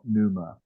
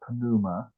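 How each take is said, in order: First: The initial P is silent. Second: The initial P is clearly pronounced. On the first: The speaker calls it wrong. "not pneuma" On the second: The speaker calls it right. "you still pronounce the, the two of them together. So it's pneuma"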